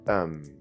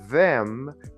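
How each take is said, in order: First: The word is reduced to a short 'um'. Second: The word is said fully with 'th'.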